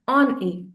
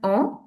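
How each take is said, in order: First: The N is sounded and linked to the vowel. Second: The N is silent and the vowel stays nasal. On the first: The speaker calls it right. "we'll pronounce it as on E" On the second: The speaker calls it wrong. "we are not going to pronounce O N as on"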